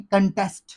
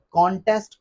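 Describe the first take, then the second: First: कंटेस्ट as kun-TEST; short uh vowel in कंटेस्ट; correct pronunciation. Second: कॉन्टेस्ट as KON-test; wrong pronunciation. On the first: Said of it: "इसको पढ़ते हैं". (कंटेस्ट, छोटा कन, फिर टेस्ट) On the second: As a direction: open O in the first syllable of कॉन्टेस्ट. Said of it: "कोई word नहीं होता". (कॉन्टेस्ट ग़लत, कॉन-टेस्ट) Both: Shown as a demonstration.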